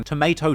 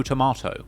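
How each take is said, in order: First: TOMATO with "may" in the middle; American pronunciation. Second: TOMATO with "mah" in the middle; British pronunciation. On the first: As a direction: say Tomato as "tuh-MAY-toe". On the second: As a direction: say tomato as "tuh-MAH-toe". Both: Shown as a demonstration. Contrasting two pronunciations.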